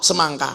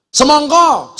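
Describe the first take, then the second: First: "semangka" the Ngapak way; Ngapak A vowels. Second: SEMONGKO high and loud with rounded O; "Semongko" in Javanese O; Javanese O vowels. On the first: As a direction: drop down to "semangka" with A sounds. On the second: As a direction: punch out "Semongko" with O endings. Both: Shown as a demonstration. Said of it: "O sama A".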